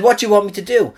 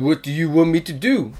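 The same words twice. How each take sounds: First: Said in the usual way. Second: Lightly put-on French accent. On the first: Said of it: "he, he said". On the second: Actor on a flight answering the crew, mock French accent. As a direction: play a Frenchman with a comic accent. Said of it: "That's my French accent".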